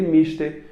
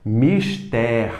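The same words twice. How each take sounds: First: Mister high, as MÍS-ter; stress on MIS. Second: Mister drawn out as mis-TÉR; stress on TER. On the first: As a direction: lift the first syllable of mister. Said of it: "é, universo não". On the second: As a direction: land hard on the end of Mister. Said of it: "É mister". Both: Shown as a demonstration.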